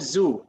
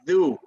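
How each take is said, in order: First: It begins with a z sound. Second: It begins with a th sound, as in this. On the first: The speaker calls it wrong. "no zu" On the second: The speaker calls it right. "It's dhu"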